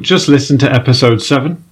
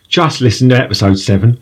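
First: It is said in the speaker's ordinary voice. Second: It is said in a put-on Cockney accent.

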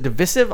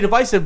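First: The middle syllable does not sound like divide. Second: The middle syllable sounds like the word divide. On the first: This is how most people say it. "everybody pronounces it divisive" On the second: This is the speaker's own old habit. "I used to say divisive"

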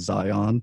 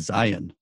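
First: The stress is on the last syllable. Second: The stress is on the first syllable. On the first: This is how visitors say it. "they accentuate the last syllable and say Zion" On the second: This is how local people say it. "the folks in Utah say Zion"

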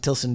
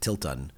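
First: The word ends with an s sound before -on. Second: The word ends with a t sound before -on. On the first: This is the familiar pronunciation. "I'm going to pronounce it Tilson because that's what I'm used to" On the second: This is how some other people pronounce it. "some people pronounce it Tilton"

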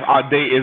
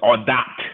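First: The name is pronounced the American way. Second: The name is pronounced the French way. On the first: This is how the speaker says it in America. "the way that I say it in the United States" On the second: This is how the speaker's father says it. "my dad says it in the French way"

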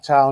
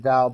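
First: The word begins with a T sound. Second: The word begins with a D sound. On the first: The speaker calls it wrong. "I call it the Tao" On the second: The speaker calls it right. "not the Dao"

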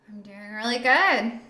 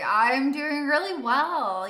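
First: It is said with low energy. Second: It is said with high energy.

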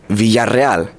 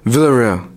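First: The double L sounds like a Y. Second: The double L sounds like an L. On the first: The speaker calls it right. "the two L's is a ya sound, and the two R's is a rrr sound" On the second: The speaker calls it wrong. "don't say Villarreal, because that's not the right way to say it"

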